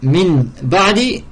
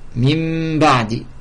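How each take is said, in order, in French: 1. Un n clair se prononce devant b. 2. Le n devient un m nasalisé devant b. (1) "Au lieu de dire min ba'di" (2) "le nun il est transformé en mim. Mim avec runna"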